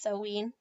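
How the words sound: It is said with the Welsh pronunciation. The speaker calls it right. "Wales, it's Samhain"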